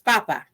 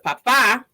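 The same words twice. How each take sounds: First: The stress is on the first syllable. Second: The stress is on the second syllable. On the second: "con acento sobre la segunda A"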